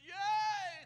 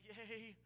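First: The word is said boldly and dramatically. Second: The word is said weakly and shakily. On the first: The reciter feels sure and performs proudly. "he did it with such eloquence" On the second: The reciter feels scared and unsure. "so nervous and so scared, and he started trembling"

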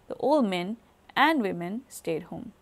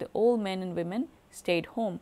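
First: 'Old men' is followed by a pause before 'women'. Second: 'Old men and women' runs together without a pause. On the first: Only the men are old. "and women do not belong to one chunk" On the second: Both the men and the women are old. "if they were one chunk"

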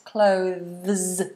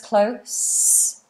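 First: The word is said with a voiced TH sound. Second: The word is said without a TH sound. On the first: "And voiced clothes, so the TH and the voiced S" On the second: "So voiceless close"

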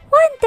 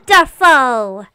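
First: It is said in a Princess Peach voice. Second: It is said in the speaker's normal voice.

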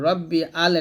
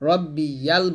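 First: A break separates 'rabbi' from 'al'. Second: A y-glide links 'rabbi' into 'yal'. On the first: The speaker calls it wrong. "রব্বি আল এটা মারাত্মক একটা ভুল" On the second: The speaker calls it right. "রব্বি ইয়াল বলবেন"

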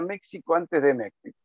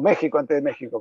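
First: The x is pronounced as a ks sound. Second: The x is pronounced as a throaty h sound. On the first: The speaker calls it wrong. "A mí me gusta cómo suena la X, pero sé que no se dice así" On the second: The speaker calls it right. "perdón"

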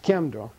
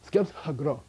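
First: The word starts with a ky sound. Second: The word starts with an sk cluster. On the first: This is how the word is said today. "The modern pronunciation of this word in Central Tibetan dialect" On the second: Every written letter is sounded out. "That's transliteration"

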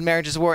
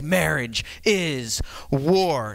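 First: The phrase is said in a calm, plain voice. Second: The phrase is said in an intense, forceful voice. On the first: "he didn't say it like I just said it then" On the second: "He said it with like this intensity"

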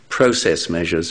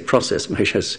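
First: Process is said with a British pronunciation. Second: Process is said with an American pronunciation.

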